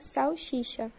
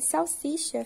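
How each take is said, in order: First: The second consonant becomes an sh sound. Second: The second consonant is an s sound. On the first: "um fonema é substituído pelo posterior" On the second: "como em salsicha"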